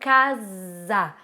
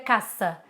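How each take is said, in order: First: The middle consonant sounds like z. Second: The middle consonant sounds like s. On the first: The speaker calls it right. "um S entre duas vogais, a gente pronuncia com som de Z" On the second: The speaker calls it wrong. "Não seria caça"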